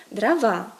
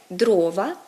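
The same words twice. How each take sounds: First: Дрова said drava, stressed long on -ВА; Russian end stress. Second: Дрова stretched long on ДРО-; Ukrainian first-syllable stress. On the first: Teacher gives Russian form, дрова stressed on the ending. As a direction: stretch the last syllable of дрова. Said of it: "російське". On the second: Teacher gives Ukrainian form, дрова stressed on first syllable. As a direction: draw out the O of дрова. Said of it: "українське". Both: Shown as a demonstration.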